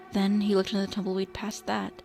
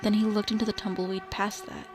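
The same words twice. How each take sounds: The two takes are said the same way.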